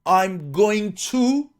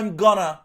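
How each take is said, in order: First: Each word is said fully and separately. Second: The words are reduced and run together.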